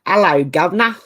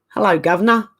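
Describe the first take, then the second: First: English accent, H dropped from Hello; slightly more convincing English accent; English accent attempt. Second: Weak attempt at an English accent; English accent that doesn't come off; failed English accent. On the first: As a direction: try a chirpy Cockney-style English greeting, 'ello. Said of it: "That might work a bit better". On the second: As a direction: have a clumsy go at an English accent. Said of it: "I can't say it in an English accent. It doesn't come out right". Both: Shown as a demonstration.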